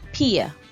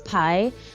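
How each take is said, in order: First: It sounds like the English word 'pay'. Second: It sounds like the English word 'pie'. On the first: The speaker calls it right. "it sounds like pay in English" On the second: The speaker calls it wrong. "your brain is probably telling you that this is pi"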